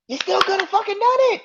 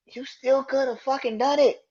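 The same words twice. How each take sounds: First: Much higher, louder, faster repeat; high, fast, furious outburst; real exasperated shout. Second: Exasperated. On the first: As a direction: yell the point again, fed up. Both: Real, not acted. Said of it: "I'm still mad at this shit".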